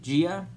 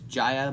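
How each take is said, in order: First: The name is said as Gia. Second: The name is said as Jaya. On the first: The actual pronunciation of the name. The speaker calls it right. "but it's actually Gia" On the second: The speaker's earlier mistaken belief. The speaker calls it wrong. "I thought it was Jaya"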